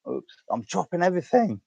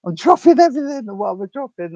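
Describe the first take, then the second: First: Said in the usual way. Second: Much higher and louder, dropping things; higher, louder panicked repeat; flustered exclaim. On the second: Real, not acted. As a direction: yelp it out in a fluster.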